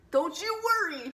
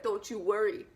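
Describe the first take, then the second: First: DON'T YOU WORRY pitched high and punched; hammed-up, higher and stronger reassurance; emphatic reassurance. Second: Said in the usual way. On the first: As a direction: reassure like an excited hype man. [name] repeats it with more force.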